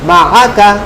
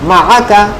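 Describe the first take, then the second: Both takes have the same delivery.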